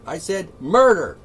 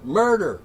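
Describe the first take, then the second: First: "murder" hit louder, falling hard; stress on murder. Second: Said in the usual way. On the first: Shown as a demonstration. Repeating the word for the protesters, murder stressed louder.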